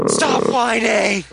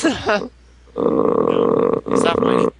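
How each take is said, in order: First: Drawn-out slow "Stop whining!" with a little extra push; mock scolding. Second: Said in the usual way. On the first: Shown as a demonstration. Redoing the line as a teasing, slow scold.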